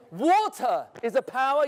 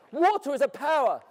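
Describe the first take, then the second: First: "Water is a power" asked with rising end; "Water is a power" rising like a question; questioning tune. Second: "Water is a power" stated with falling end; "Water is a power" said as a firm statement; stating it. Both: Shown as a demonstration. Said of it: "yes or no?".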